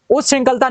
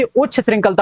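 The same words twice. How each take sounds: First: उच्च श्रृंखलता begun as us-shrinkhalta; mistaken us sound. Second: उच्च श्रृंखलता begun as uchchh; corrected ch sound. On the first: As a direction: say उच्च श्रृंखलता with hissed us first. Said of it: "नहीं होती". (उच्च श्रृंखलता, उश् जैसा) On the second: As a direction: say उच्च श्रृंखलता with a full chh. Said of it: "होती है". (उच्च श्रृंखलता, साफ़ उच्छ) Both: Shown as a demonstration.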